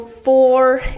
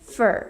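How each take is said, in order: First: The word has a full, clear vowel. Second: The word is reduced to a weak vowel. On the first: "Instead of saying" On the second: "try to say fur"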